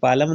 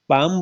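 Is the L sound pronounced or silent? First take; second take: pronounced; silent. First: The L sound is pronounced. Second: The L sound is silent. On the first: The speaker calls it wrong. "पालम नहीं बोलते" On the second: The speaker calls it right. "पाम बोलते हैं"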